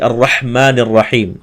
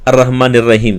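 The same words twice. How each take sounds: First: The h is clear and the r heavy. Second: The h and r sounds are softened. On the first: The speaker calls it right. "हा को अदा करना है... रा को मुर पुर पढ़ना, मोटा पढ़ना" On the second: The speaker calls it wrong. "ये गलत तरीके से पढ़ते हैं"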